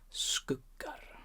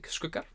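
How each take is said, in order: First: The word is said slowly. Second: The word is said quickly. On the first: "You can say it slow" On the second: "you could say it fast"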